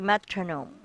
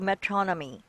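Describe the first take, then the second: First: The last syllable ends in a long oh sound. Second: The last syllable ends in an ee sound. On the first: The speaker calls it right. "It should be metronome" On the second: The speaker calls it wrong. "it shouldn't be metronomy"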